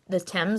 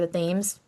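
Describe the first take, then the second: First: The name is pronounced the British way. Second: The name is pronounced the American way.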